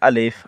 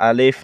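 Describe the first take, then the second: Both takes have the same delivery.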